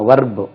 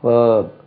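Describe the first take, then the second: First: It has a short 'a' vowel and a final 'u'. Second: It has a long buzzing 'er' vowel, no final vowel. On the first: The speaker calls it wrong. "நம்ம வர்பு பாருங்க" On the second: The speaker calls it right. "வேர்ப் என்று உச்சரிக்கணும்"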